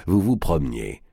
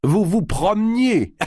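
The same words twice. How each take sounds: First: Said in the usual way. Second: High laughing mock disbelief; laughing incredulous. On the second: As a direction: laugh the question out, slow. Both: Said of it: "Le géant éclata de rire".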